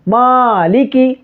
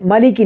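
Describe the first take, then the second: First: The first vowel is stretched for two counts. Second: The first vowel is short and clipped. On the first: The speaker calls it right. "टू time खींच के पढ़ना है" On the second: The speaker calls it wrong. "मालिकी नहीं"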